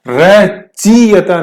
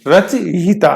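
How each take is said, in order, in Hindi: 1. 'i' ध्वनि 'y' से पहले आती है। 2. 'i' ध्वनि 'y' के बाद आती है। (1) "रचयिता नहीं" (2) "ये सही है"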